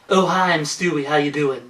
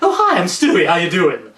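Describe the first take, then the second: First: The Stewie voice sounds shallow and one-note. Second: The Stewie voice sounds richer and more varied.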